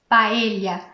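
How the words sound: It is said with a Spain Spanish accent. The speaker calls it right. "em espanhol se diz paella"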